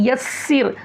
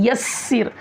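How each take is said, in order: The two takes are said the same way.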